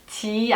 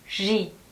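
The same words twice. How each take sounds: First: It starts with a hard 'j' sound. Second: It starts with a soft 'zh' sound. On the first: The speaker calls it wrong. "G 아니고요" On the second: The speaker calls it right. "바로 이 발음이 가장 자연스러운 발음인데요"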